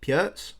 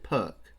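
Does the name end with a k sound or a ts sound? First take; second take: ts; k. First: The name ends with a ts sound. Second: The name ends with a k sound. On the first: The speaker calls it right. "I think it might be pronounced Pjerts" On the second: The speaker calls it wrong. "I don't think you actually pronounce it Perk"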